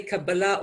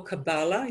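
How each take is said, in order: First: Kabbalah with the weight on the last syllable; Kabbalah, stressed at the end; first English variant. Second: Kabbalah with the weight on the middle syllable; Kabbalah, stressed in the middle; second English variant. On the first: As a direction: say Kabbalah as ka-ba-LAH. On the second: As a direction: say Kabbalah as ka-BAH-la. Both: Shown as a demonstration. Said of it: "you'd probably say Kabbalah or Kabbalah".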